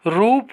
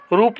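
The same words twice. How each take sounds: First: रूप with a drawn-out oo; correct long vowel. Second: रूप with a short u; wrong short vowel. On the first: Teacher giving students the right form, long vowel. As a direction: say रूप as "roop". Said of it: "होता है". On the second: Teacher showing students the mistake, short mispronounced vowel. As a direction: say रूप as "rup". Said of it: "नहीं होता है". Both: Shown as a demonstration.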